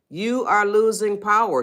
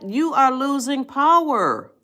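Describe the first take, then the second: First: Said in the usual way. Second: High, slow emphatic declaration; slow and high, pressing the point. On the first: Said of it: "That is when you are angry". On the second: Shown as a demonstration. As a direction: lean hard into each word. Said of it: "Can you see that?".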